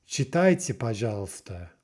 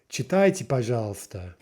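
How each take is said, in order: Both takes have the same delivery.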